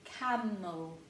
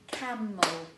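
First: Said in the usual way. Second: Camel said louder and clearer for the class to echo; repeated louder. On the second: Shown as a demonstration. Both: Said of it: "So we've got".

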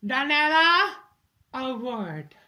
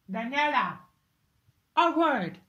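First: Loud call. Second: Said in the usual way. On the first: Acted. Calling her daughter over.

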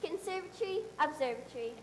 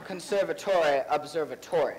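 First: "Conservatory" run together as "con-SER-va-tree", "observatory" the same; American pronunciation. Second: "Conservatory" with a full "tory" ending, "observatory" too; fake English pronunciation. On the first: Cast member shows the American way of saying the words. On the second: Actor repeats the words in his fake English accent. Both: Shown as a demonstration. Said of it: "You don't run the Tory together".

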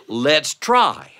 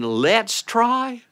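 First: Said in the usual way. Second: "Let's try" pitched much higher, the word try lifted; questioning Let's try. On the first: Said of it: "did I mean". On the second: Shown as a demonstration. Narrator wonders if he said "Let's try", high and questioning. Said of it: "did I mean, "Let's try"?".

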